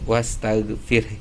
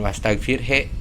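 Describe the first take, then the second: First: The word ends with only a faint breathy release. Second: The word ends with a clear, full 'he' sound. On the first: The speaker calls it right. "dibaca samar aja" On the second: The speaker calls it wrong. "jangan wastaghfir he gitu ya"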